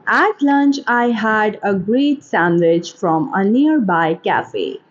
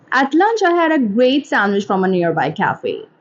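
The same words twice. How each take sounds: First: Slow, careful enunciation; slow model reading. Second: Said in the usual way. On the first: Shown as a demonstration. Teacher models a line for English shadowing, slowly. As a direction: read it slowly, word by word.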